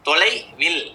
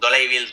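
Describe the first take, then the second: First: The word is split into two parts. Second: The word is said as one unbroken unit. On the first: It means an equal measure, not distance. "பிரிச்சு படிக்கலாம்" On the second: It means far away. "தூரம் அப்படின்னு"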